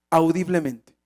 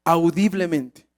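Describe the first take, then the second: No difference in how they are said.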